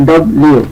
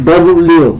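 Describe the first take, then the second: The two takes are said the same way.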